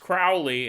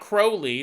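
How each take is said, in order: First: The first syllable rhymes with cow. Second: The first syllable does not rhyme with cow. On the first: The speaker calls it right. "It's Crowley. I guess that rhymes with cow" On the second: The speaker calls it wrong. "It's not Crowley"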